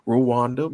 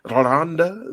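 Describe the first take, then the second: First: The name is pronounced in a plain way. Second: The name is pronounced in an elegant way. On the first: This is how the speaker assumed it was said. The speaker calls it wrong. "I thought Rwanda" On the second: This is how a reporter on location said it. The speaker calls it right. "it's Rwanda the way she said it. It was so elegant"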